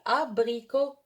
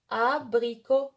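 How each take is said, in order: No difference in how they are said.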